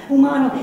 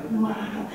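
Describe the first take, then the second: First: Umano blurted out loud; shouted word. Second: Said in the usual way. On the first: Acted. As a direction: punch umano much louder. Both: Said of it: "repeats word, then shouts it".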